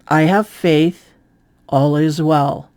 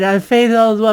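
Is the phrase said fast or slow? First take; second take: slow; fast. First: It is said slowly and drawn out. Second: It is said quickly and plainly. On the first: "you slow it down and you spread it out" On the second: "than if you just say it"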